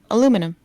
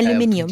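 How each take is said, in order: First: It is said with four syllables, American style. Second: It is said with five syllables, British style. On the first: "if you're American, you say" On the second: "if you're British, you go"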